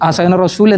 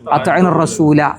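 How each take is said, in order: First: The last word ends on a bare consonant. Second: The last word ends on a long vowel. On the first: The speaker calls it wrong. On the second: The speaker calls it right.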